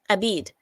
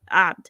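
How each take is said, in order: First: It starts with a plain vowel, no throat sound. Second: It starts with a sound from deep in the throat. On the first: The speaker calls it wrong. "requires that you use an Arabic letter that she cannot say" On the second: The speaker calls it right. "it's like from the back of your throat"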